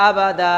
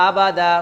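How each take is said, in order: The two takes are said the same way.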